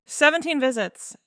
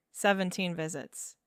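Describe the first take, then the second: First: SEVENTEEN VISITS punched out high and loud; "Seventeen visits" repeated as a loud, high-pitched blow; emphatic repeat. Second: Said in the usual way. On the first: A narrator's reading. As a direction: hit "Seventeen visits" hard, higher and louder, falling at the end. Count repeated with emphatic disbelief.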